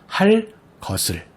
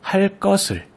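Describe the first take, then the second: First: Said with a clear break between words. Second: Said smoothly with no break between words. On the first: "명확하게 끊어 읽게 될 경우" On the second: "모두 된소리로 발음하게 되죠"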